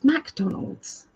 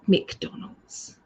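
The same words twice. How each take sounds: First: The first syllable is a full 'mac'. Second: The first syllable is a reduced 'muh'. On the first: The speaker calls it right. "It's McDonald's" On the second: The speaker calls it wrong. "It's not McDonald's"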